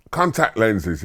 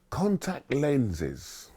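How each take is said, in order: First: Said in the usual way. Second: Slow, soft and higher, drawn out; solemn career master. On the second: Retold or imitated. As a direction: unveil it like a grand secret.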